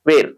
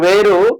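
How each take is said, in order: First: The word ends cleanly on the final consonant. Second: An extra 'u' vowel is added after the consonant. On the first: The speaker calls it right. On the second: The speaker calls it wrong.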